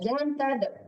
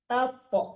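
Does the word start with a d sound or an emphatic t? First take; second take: d; emphatic t. First: It begins with a plain d sound. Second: It begins with a heavy, emphatic t sound. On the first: The speaker calls it wrong. "Kalau tada itu dal" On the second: The speaker calls it right. "to itu huruf tebal ya"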